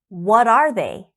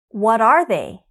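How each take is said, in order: The two takes are said the same way.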